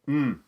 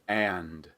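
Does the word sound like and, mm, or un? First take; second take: mm; and. First: It is reduced to a bare nasal mm. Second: It has a full vowel and a final d. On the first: "or even mm" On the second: "a strong form of and"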